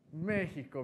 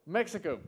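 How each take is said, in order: First: Mexico said the Spanish way, "Meh-hee-ko", with a breathy h; Spanish pronunciation. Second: Said in the usual way. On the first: Shown as a demonstration. Greeting Mexican guests, Mexico said "Meh-hee-ko".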